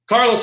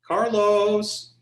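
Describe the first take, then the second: First: The name is said in a stern, scolding tone. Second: The name is said in a sweet, gentle tone. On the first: The listener is in trouble. "Uh-oh, now what I do?" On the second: The caller wants a favor. "mom wants something and she's being really sweet"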